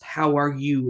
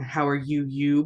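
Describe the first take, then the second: First: "How are you" with one emphasized "you"; stress on YOU. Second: "you" said twice, the repeat given more force; doubled you. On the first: Teacher correcting the literal translation, emphatic you. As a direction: land firmly on the single "you". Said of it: "It's like emphasis". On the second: Teacher showing a too-literal translation, doubled you. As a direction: say "How are you" then add a second, stronger "you". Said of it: "It's like you're saying". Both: Shown as a demonstration.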